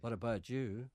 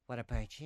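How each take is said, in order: First: "What about you" with an affected English swing on "you"; "What about you" ending in a put-on English lilt; wrong rising ending. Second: "What about you" lifting on "you" the local way; plain local question, going up at "you"; acceptable rising ending. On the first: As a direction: demonstrate the no-good lift on "you". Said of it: "You see, that's no good". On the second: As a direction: ask it with a Northern Irish rise on "you". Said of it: "Let's try the two together". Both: Shown as a demonstration.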